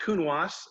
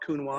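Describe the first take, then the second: First: The final S sound is clearly pronounced. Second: The final S sound is left silent. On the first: The speaker calls it right. "because there's an E after the S, you pronounce the S" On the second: The speaker calls it wrong. "A lot of people call it Counois"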